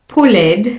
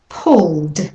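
First: An extra vowel sound separates the L and D. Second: The L goes straight into the D. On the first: The speaker calls it wrong. "It's not pulled" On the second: The speaker calls it right. "You go straight from the L to the D, but pulled"

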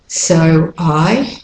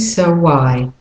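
First: The two words are said separately without linking. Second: A w sound links the two words.

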